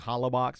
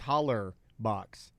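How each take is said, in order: First: The first word ends without an r sound. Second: The first word ends with an r sound. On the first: The speaker calls it wrong. "and I say Hollabox. People hate that" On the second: The speaker calls it right. "It's holler box"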